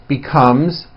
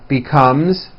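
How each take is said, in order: Both takes have the same delivery.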